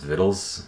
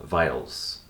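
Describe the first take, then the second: First: The first vowel sounds like 'it'. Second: The first vowel sounds like 'eye'. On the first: The speaker calls it right. "it's actually pronounced vittles" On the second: The speaker calls it wrong. "I kept on pronouncing it"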